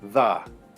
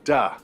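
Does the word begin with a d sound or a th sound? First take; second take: th sound; d sound. First: The word begins with a soft th sound. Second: The word begins with a hard d sound.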